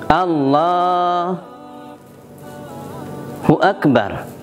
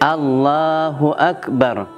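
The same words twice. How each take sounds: First: There is a pause between the two words. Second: The two words run on without a pause.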